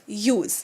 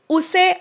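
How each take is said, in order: First: The word begins with a 'yoo' sound. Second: The word begins with a plain 'oo' sound. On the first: The speaker calls it right. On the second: The speaker calls it wrong.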